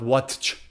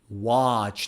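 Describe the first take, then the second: First: The T sound is pronounced. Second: The T sound is left out. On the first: The speaker calls it wrong. "not watch" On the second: The speaker calls it right.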